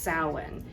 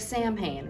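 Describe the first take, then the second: First: It is pronounced the Irish way, unlike its spelling. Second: It is pronounced letter by letter, as spelled. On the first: The speaker calls it right. "it is actually pronounced Samhain in Ireland" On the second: The speaker calls it wrong. "That looks like Samhain"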